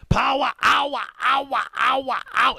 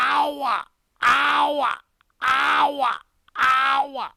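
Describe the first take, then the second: First: It is said quickly and briefly. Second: It is said slowly and drawn out.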